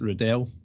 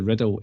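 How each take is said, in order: First: The name ends with a clear 'dell' sound. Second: The name ends with a reduced 'dle' sound. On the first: This is how the name's owner says it. "I pronounce it Riddell because it's D E L L at the end" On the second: This is how the other spelling of the name is said. "Riddle is R I D D L E"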